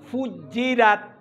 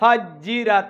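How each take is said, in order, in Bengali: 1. প্রথম স্বরধ্বনিটি গোল ঠোঁটের 'u' ধ্বনি। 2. প্রথম স্বরধ্বনিটি ঠোঁট গোল না করা 'a' ধ্বনি।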